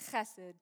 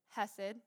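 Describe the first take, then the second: First: The word begins with a harsh throat sound. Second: The word begins with a soft h sound. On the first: "say it the really correct way" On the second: "I've taught it to you before"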